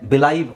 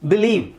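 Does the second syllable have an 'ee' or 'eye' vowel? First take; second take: eye; ee. First: The second syllable has an 'eye' vowel. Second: The second syllable has an 'ee' vowel. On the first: The speaker calls it wrong. "ಬಿಲೈವ್ ಆಗುತ್ತೆ" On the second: The speaker calls it right. "So ಹಾಗಾಗಿ ಬಿಲೀವ್"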